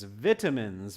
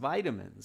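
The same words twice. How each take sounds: First: It is said with a British pronunciation. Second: It is said with an American pronunciation. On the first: "If you have an examiner who is British, they will ask the question as vitamins" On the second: "us Americans and Canadians, we call them vitamins"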